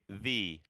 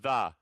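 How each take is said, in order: First: The vowel is a long 'ee' sound. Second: The vowel is a short, reduced 'uh' sound. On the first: The speaker calls it right. "No, we say the" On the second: The speaker calls it wrong. "ice starts with a vowel. So we don't say the"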